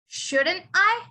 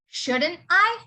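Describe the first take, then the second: First: Each word is said fully and separately. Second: The same.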